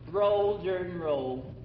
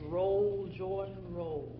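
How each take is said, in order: First: It is said in a relaxed, traditional folk pronunciation. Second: It is said in a careful, formal concert pronunciation. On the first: This is how the older generation really said it. The speaker calls it right. "The word was Jordan" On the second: This is how the formal performers say it. The speaker calls it wrong. "The whole manner of diction has been affected"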